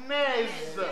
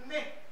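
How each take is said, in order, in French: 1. Le son final z est prononcé. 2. La consonne finale est muette. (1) "Si vous prononcez, ce sera naise" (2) "une consonne qui termine le mot mais qui est muette"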